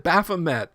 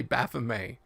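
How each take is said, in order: First: Baphomet said "BAF-uh-met", T sounded; habitual anglicized pronunciation. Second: Baphomet said "baf-uh-MAY", silent T; French pronunciation. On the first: Host defending his old habit, Baphomet as "baf-uh-met". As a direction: finish Baphomet with a plain English "met". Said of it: "I just always said". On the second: Host trying the unfamiliar French form, Baphomet as "baf-uh-may". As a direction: end Baphomet on "may", dropping the T. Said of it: "Baphomet is French". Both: Shown as a demonstration.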